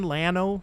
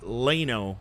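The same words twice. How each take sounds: First: The first vowel is a short 'a' as in 'Landon'. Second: The first vowel is a long 'a' as in 'Lane'. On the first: "Like Landon?" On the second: "Like Lane?"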